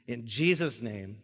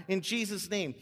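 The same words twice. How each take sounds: First: Said in the usual way. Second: In Jesus' name tossed off quickly as a summary; quick recap. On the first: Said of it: "See that?". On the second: Shown as a demonstration. Pastor sums up the prayer shape, quick and light. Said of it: "So it's like".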